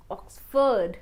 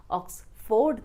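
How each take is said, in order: First: "ऑक्सफोर्ड" as ox-fud; correct OXFORD. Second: "ऑक्सफोर्ड" ending in full ford; wrong OXFORD. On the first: Teacher correcting learners, "ऑक्सफोर्ड" as ox-fud. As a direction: schwa in the end of "ऑक्सफोर्ड". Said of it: "will be pronounced as". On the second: Teacher rejecting the mistake, "ऑक्सफोर्ड" as ox-ford. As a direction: clear o in the last syllable of "ऑक्सफोर्ड". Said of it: "ऑक्सफोर्ड नहीं". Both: Shown as a demonstration.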